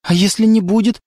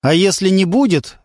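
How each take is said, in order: First: A hint of hope, rising on «не»; hopeful. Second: A hint of musing, falling on «будет»; thoughtful. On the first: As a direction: ask it hopefully, lifting «не». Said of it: "в вопросе Леры прозвучала надежда". (с надеждой, подъём на «не») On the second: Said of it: "Лёня задумался". (задумчиво, спад на «будет») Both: A narrator's reading.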